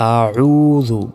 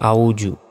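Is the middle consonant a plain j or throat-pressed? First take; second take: throat-pressed; plain j. First: The middle consonant is pressed in the throat. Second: The middle consonant is a plain j. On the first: The speaker calls it right. "গলায় চাপ দিয়ে" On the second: The speaker calls it wrong. "বাংলায় লেখা আছে আউজু"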